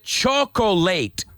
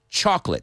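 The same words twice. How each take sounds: First: The word is said with three syllables. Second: The word is said with two syllables. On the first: The speaker calls it wrong. "please don't pronounce it chocolate, because that's not how we pronounce it" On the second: The speaker calls it right. "Say it's two syllables"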